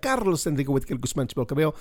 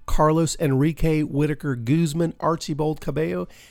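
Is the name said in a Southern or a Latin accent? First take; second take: Latin; Southern. First: It is said in a spicy Latin accent. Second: It is said in a Southern American accent.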